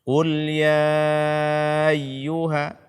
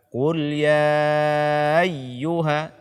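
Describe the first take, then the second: No difference in how they are said.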